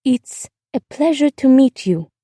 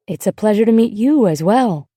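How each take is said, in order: First: Put-on slow, higher girl's voice; careful, formal politeness from a child; girl feeling grown up. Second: Easy, poised woman's reply; adult neighbor woman. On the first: Girl politely greeting her glamorous neighbor, trying to sound grown up. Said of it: "feeling suddenly grown up". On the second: Woman next door answering the girl's greeting, poised and easy. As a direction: return the greeting smoothly, as an adult. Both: A narrator's reading.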